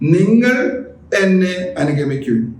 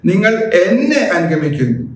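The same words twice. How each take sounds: First: The stress falls on the first word. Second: The stress falls on the second word. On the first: It is you and no one else. "മറ്റാരുമല്ലെന്നർത്ഥം" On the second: Follow me and not anyone else. "നിങ്ങൾ മറ്റാരുടെയും പിറകെ പോകരുതെന്നർത്ഥം"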